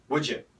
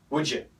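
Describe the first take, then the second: First: The d and y merge into a j sound. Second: The same.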